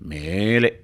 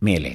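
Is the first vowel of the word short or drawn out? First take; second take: drawn out; short. First: The first vowel is stretched out long. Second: The first vowel is said at normal length. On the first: The thing is very high up. "ತುಂಬ ಎತ್ತರದಲ್ಲಿ" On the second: The thing is only slightly high up. "ಸ್ವಲ್ಪ ಎತ್ತರದಲ್ಲಿದ್ದರೆ"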